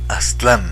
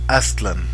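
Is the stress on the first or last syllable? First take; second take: last; first. First: The stress is on the last syllable. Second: The stress is on the first syllable. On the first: The speaker calls it wrong. "no Aztlán ... no agudas" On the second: The speaker calls it right. "así ... todas las palabras nahuas son graves"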